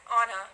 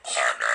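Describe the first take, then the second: First: Said in the usual way. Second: Name belched out deep; burping the words. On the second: Shown as a demonstration. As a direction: burp the name Anna. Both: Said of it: "Can you burp my name?".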